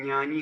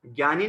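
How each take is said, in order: First: ज्ञानी said as nyani; correct palatal-nasal pronunciation. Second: ज्ञानी said as gyani; hard g and y opening ज्ञानी; rejected g-y pronunciation. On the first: Teacher modelling the correct form, ज्ञानी as nyani. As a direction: say ज्ञानी with ny in front, no g. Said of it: "इसका सही उच्चारण होता है". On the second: Teacher rejecting the common form, ज्ञानी said as gyani. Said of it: "ज्ञानी नहीं कहता वास्तव में". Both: Shown as a demonstration.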